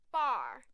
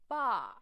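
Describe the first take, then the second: First: American accent. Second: British accent. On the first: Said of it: "酒吧bar". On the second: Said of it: "英式发音bar". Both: Shown as a demonstration.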